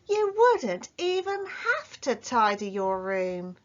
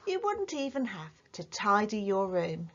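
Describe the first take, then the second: First: It is said with strong, exclamatory emphasis. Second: It is said plainly, like a statement.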